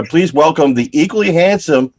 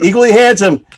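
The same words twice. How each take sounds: First: Said in the usual way. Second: "handsome" punched higher; mock-proud emphasis on "handsome"; stress on handsome. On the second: Shown as a demonstration. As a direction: lean hard into "equally handsome". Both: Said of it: "yep, that's what it says".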